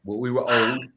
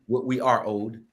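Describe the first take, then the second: First: Were said plainly, past tense; first take, leaning on were; retelling what was owed; stress on were. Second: Corrected take, are said firmly; correcting himself to are; stress on are. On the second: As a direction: fix it to are, lean on the word. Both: Real, not acted.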